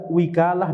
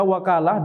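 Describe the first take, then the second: First: The first vowel is an 'i' sound. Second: The first vowel is an 'a' sound. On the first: "dengan kasrah" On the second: "dengan fathah"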